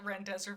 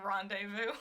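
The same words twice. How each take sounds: First: It is pronounced with an English-style sound. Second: It is pronounced with a French-style sound. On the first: This is how a non-French speaker says it. "But I'm not French. I'll call it rendezvous" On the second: This is how a French speaker says it. "not rendezvous"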